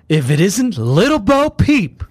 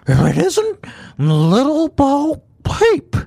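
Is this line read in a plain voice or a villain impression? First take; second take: plain; villain impression. First: It is read in a plain, ordinary voice. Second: It is read in a drawling, maniacal villain voice.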